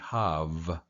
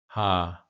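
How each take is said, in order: First: The syllable ends with a v sound. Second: The syllable ends in a vowel sound. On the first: The speaker calls it right. "technically, this would be the first syllable would be hav" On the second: The speaker calls it wrong. "I probably pronounced it just straight across"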